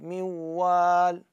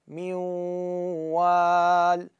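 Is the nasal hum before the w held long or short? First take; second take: short; long. First: The nasal hum is cut short immediately. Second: The nasal hum is held for two beats. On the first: The speaker calls it wrong. "مو رأسا نقول ميوال" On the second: The speaker calls it right. "شوف مقدار حركتين التكه"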